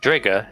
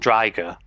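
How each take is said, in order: First: The name does not rhyme with tiger. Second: The name rhymes with tiger. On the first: This is how the dub says the name. The speaker calls it wrong. "Drigger is supposed to be pronounced" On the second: This is how the name is meant to be said. The speaker calls it right. "because it rhymes with tiger"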